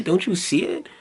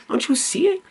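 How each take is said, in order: First: Said in the usual way. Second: Exasperated high plea. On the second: Real, not acted. Urging viewer, repeated question.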